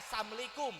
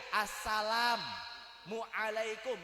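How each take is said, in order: First: "Assalamualaikum" swallowed fast as "samlikum"; clipped salam. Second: "Assalamualaikum" said very slowly, every syllable spelled out; clear salam. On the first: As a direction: mumble "Assalamualaikum" quickly, dropping the middle. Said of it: "Lo dari arti aja beda". ("Assalamualaikum" disingkat cepat jadi "samlikum") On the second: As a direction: stretch "Assalamualaikum" out in full. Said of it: "Beda tuh". ("Assalamualaikum" diucapkan pelan dan utuh) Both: Shown as a demonstration.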